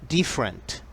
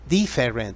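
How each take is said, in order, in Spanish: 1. La vocal después de la f se omite. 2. La vocal después de la f se pronuncia. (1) "La E después de la F no se pronuncia; así se pronuncia" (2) "No vas a decir different, different, porque así no lo hacen"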